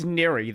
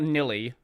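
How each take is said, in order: First: The middle consonant is an R sound. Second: The middle consonant is an L sound. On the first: The speaker calls it right. "It it's niri though" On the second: The speaker calls it wrong. "not nilly"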